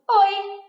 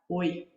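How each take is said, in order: First: The word is said at a higher pitch. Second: The word is said at a lower pitch. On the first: The speaker seems receptive but more childish. "E um oi mais agudo" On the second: The speaker seems distant and not open to talking. "posso falar um oi um pouquinho mais grave"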